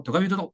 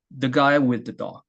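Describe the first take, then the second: First: THE GUY WITH THE run together quickly; rushed through. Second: THE GUY WITH THE DOG measured, leaning on GUY; placed rhythm. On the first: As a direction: rattle off "the guy with the" without placing each word. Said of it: "이걸 그냥 빨리 한다고". (그냥 빨리 이어서 "the guy with the") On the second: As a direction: give "the guy with the dog" a steady beat, GUY stressed and falling. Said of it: "이렇게 하는 게 아니라". (자리를 잡고 "guy"에 힘을 실어 박자 있게) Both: Shown as a demonstration.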